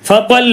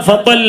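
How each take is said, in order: No difference in how they are said.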